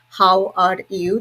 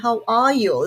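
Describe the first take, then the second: First: It is said in an Indian English accent. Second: It is said in a British English accent. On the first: "This is how Indian people say" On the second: "British people say"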